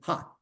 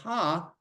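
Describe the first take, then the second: First: The vowel is clipped and said very quickly. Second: The vowel is held at normal length. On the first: "with that short vowel, it'd be ha, very quick" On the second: "Instead of ha"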